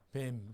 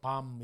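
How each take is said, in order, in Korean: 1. 모음은 앞쪽 모음이에요, 'bed'의 'e'처럼요. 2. 모음은 열린 모음이에요, 'father'의 'a'처럼요. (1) "발음이 어떻게 될 것 같아요? 뱀" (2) "뱀이라고 하기 싫어서 밤 이렇게 하기도 하고"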